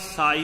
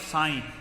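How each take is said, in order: First: The vowel is said without nasal sound. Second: The vowel is said with a nasal sound. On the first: It means that which pleases you. The speaker calls it right. "that part is Sai" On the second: It is a word for God. The speaker calls it wrong. "not Sai"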